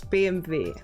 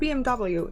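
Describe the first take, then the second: First: The letters are named the German way. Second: The letters are named the English way. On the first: The speaker calls it right. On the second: The speaker calls it wrong. "It's not"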